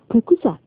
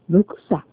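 First: The first consonant is a voiceless p sound. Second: The first consonant is a voiced b sound. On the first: "例えば、" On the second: "これが、ブクサ。という人も"

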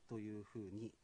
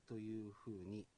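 The two takes are said the same way.

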